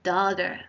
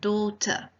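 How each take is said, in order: First: The middle t sounds like a d. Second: The middle t sounds like a clear t. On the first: "In American English, it is pronounced" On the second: "In British English, it is pronounced"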